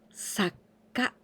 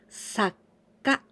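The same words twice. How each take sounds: The two takes are said the same way.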